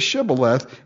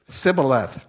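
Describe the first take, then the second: First: The word begins with a sh sound. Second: The word begins with an s sound. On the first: The speaker is not from the group being caught. The speaker calls it right. "say Shibboleth" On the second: The speaker belongs to the group being caught. The speaker calls it wrong. "They couldn't say the sh. They had to say s"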